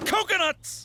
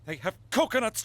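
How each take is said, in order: First: Coconuts! bursts out much higher and with a falling tune; high, thrilled cry of coconuts; excited exclamation. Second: Said in the usual way. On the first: Acted. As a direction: blurt it out with sudden glee.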